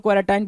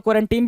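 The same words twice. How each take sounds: First: क्वारंटाइन with an "eye" sound in the last syllable; "-tine" pronunciation. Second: क्वारंटीन with a long "ee" in the last syllable; "-teen" pronunciation. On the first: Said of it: "कुछ लोग क्वारंटाइन बोलते हैं". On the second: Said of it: "कुछ लोग क्वारंटीन भी बोलते हैं". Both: Shown as a demonstration.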